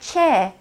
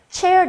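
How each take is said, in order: First: The final R sound is barely heard. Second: The final R sound is clearly rolled. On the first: "R 발음이 잘 들리지 않겠죠" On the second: "미국 발음은 조금 R 발음을 많이 굴리기는 하지만"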